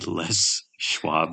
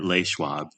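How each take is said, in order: First: Les is pronounced like English, as 'less'. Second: Les is pronounced like French, as 'lay'. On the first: It is named after the man who started it. The speaker calls it right. "it's actually Les Schwab, named after the guy who started it" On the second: It is taken to be a French company name. The speaker calls it wrong. "You call it Les Schwab"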